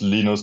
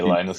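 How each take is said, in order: First: The name is pronounced the German way. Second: The name is pronounced the English way. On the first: This is the name's original pronunciation. "in German it's Linus" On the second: This is an easier form for English speakers. "but just say Linus, it's easier"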